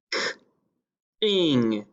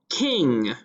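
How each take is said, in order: First: "k-ing" split, onset then rime; segmented word. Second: Said in the usual way. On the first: Shown as a demonstration. Teacher segmenting "k-ing" for young spellers. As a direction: pound out "k-ing" slowly in two parts. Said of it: "then we're going to pound it". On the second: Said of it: "I'm going to say the word".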